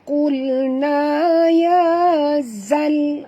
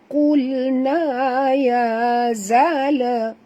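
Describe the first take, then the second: First: The last word ends on a stopped consonant. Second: The last word ends with an added vowel. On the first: The speaker calls it right. "Bunyikan alif lam yang mati ini jangan dilantunkan" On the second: The speaker calls it wrong. "dia kata zala. Tak betul ya"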